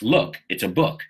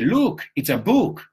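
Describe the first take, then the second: First: The vowels sound short and relaxed. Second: The vowels sound long, like in 'Luke'. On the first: The speaker calls it right. "No, it's" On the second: The speaker calls it wrong. "I've heard a lot of people in Spain say"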